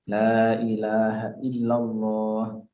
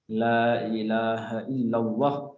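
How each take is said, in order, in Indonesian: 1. Huruf vokal panjang dibaca panjang. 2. Huruf vokal panjang dipendekkan. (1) "yang panjang dipanjangkan" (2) "Jadi jangan kita membaca la ilaha illallah"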